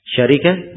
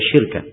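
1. Kata ini terdiri dari tiga suku kata, sya-ri-kah. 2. Kata ini terdiri dari dua suku kata, syir-kah. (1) "Dua bacaan. Syarikah dan syirkah" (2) "Bisa juga dibaca babu syirkah"

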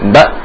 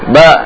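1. Vokalnya berhenti mendadak. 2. Vokalnya agak dipanjangkan. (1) "Tapi suara langsung mati" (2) "itu agak nyeret sedikit, tidak boleh"

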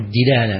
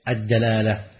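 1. الحركة الأولى هي i، كما في dilala. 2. الحركة الأولى هي a، كما في dalala. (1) "فكثير من الناس تجد أنه يقول" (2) "لكن الأفصح وجه إيش؟"

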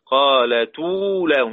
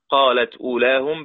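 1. تُحذف الهمزة وتنتقل حركتها إلى الحرف السابق. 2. الهمزة تُنطق بعد الكلمة الأولى.

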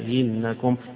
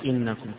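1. ألف مد، ثم همزة ثانية مسهلة. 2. همزتان محققتان بلا حركة بينهما. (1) "وبالإدخال مع التسهيل" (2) "فيقرأ إنكم كغيره"

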